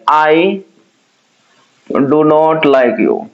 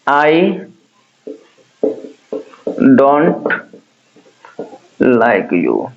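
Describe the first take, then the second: First: Both words 'do not' are said in full. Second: It is contracted to 'don't' with a T. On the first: This is the formal form. "डू नॉट, मुझे पता है ये क्या हो जाएगा आपका formal" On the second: This is the informal form. "डोंट क्या हो जाएगा इनफॉर्मल"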